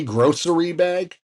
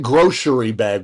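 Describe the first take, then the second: First: "grocery" said with a plain s sound, gro-ser-y bag; grossery. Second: "grocery" said with an sh sound, gro-sher-y bag; groshery. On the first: Host giving the spelled version, grossery with a clear s. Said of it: "when there's no S H". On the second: Host questioning the spelling, saying groshery with sh. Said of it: "why is it grocery bag when there's no S H". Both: Shown as a demonstration.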